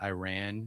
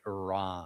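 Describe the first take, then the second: First: The vowels are short and quick. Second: The vowels are drawn out and long. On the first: The speaker calls it wrong. "not Iran" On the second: The speaker calls it right. "It's as if it has two R's and two A's"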